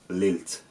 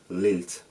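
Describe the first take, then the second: The two takes are said the same way.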